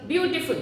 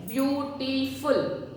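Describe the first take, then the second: First: Said in the usual way. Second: "beautiful" drawn out slowly as beau-ti-ful, every syllable clear; slow drilled word. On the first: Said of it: "Can you say few more?". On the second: Shown as a demonstration. Teacher drilling the class, saying "beautiful" slowly. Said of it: "What it is?".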